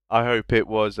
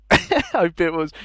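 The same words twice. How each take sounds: First: Said in the usual way. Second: Laughing. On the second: Real, not acted. Laughs mid restart of line.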